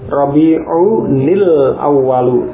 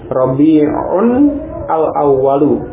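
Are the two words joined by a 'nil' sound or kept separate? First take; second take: joined; separate. First: The words are joined with a linking 'nil' sound. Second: The words are said separately without linking. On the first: "Kalau bersambung, un bunyi nun, bunyi tanwin atau nun sukun itu dibaca kasrah nunnya" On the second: "asalnya seperti ini"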